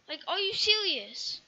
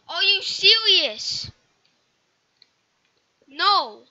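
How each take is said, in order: First: Said in the usual way. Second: Loud and slow, disbelieving; exasperated yell. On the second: Real, not acted. Gamer yelling at the game in disbelief.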